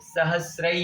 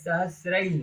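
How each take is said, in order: First: The word ends with an audible breathy h. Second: The word ends on the vowel without breath. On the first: The speaker calls it right. "उसके पश्चात विसर्ग है, तो ऐसे बोलेंगे" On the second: The speaker calls it wrong. "नहीं है"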